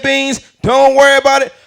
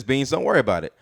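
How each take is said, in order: First: Booming, high-pitched comedian impression; Bernie Mac. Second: Said in the usual way. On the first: Mama's reassurance reread by an adult comic, loud high impression. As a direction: blare the comfort out like a brash comic. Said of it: "reread it as Bernie Mac's voice". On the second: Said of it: "I feel like it's a beautiful quote".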